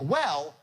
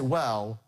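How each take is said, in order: First: The word goes up to a high pitch. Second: The word is said on a lower pitch. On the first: The speaker has room to drop into the next phrase. The speaker calls it right. "So you go up on well" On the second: The speaker leaves no room to drop to the next phrase. The speaker calls it wrong. "The mistake you have is you're not starting off high enough... you can't get there"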